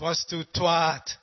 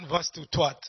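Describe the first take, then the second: First: The final vowel is long. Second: The final vowel is short. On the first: The speaker calls it right. "Long A" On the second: The speaker calls it wrong. "So it's not vastu twat"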